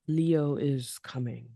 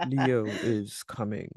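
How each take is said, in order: First: Slow rumbling lion-king voice; Mufasa voice. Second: Low, slow rumble broken by a laugh; Mufasa voice. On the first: Co-host doing a Mufasa line back, slow rumble. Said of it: "was that your Mufasa voice?". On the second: Co-host repeats the Mufasa line, low and laughing. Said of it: "I tried to get that good rumble in there". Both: Acted.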